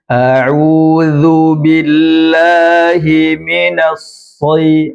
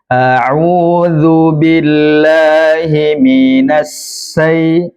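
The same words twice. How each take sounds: First: The last word starts with an emphatic s sound. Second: The last word starts with a plain s sound. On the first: "membaca seakan-akan seperti shad" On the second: "Shin dibaca seperti sin"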